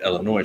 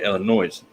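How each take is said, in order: First: Said in the usual way. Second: Illinois ending in a clear Z sound; Illinois said like "illa-noise"; final S sounded. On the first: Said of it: "they dropped it and turned it". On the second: Shown as a demonstration. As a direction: voice the normally silent S in Illinois. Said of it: "used to be you could say".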